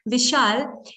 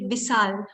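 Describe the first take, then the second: First: The name is said in a standard way. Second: The name is said like a rural villager. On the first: The speaker calls it right. "instead of saying Vishal" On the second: The speaker calls it wrong. "like a villager"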